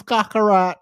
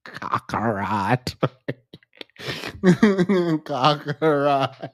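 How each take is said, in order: First: Said in the usual way. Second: Eerie low whisper; hushed anime whisper. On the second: Pretend. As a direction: breathe the name out slowly.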